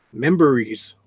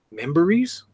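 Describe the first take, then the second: First: Said in the usual way. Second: "Memories" with a rising questioning tune; puzzled question. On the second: Real, not acted. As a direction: query "Memories", lifting the end. Repeats the word, not understanding it.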